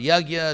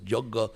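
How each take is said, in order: First: It is said in a non-Bengali regional pronunciation. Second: It is said in the Bengali regional pronunciation. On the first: "about three hundred pronunciations in India" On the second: "In Bengal, West in East India, it's Jogga"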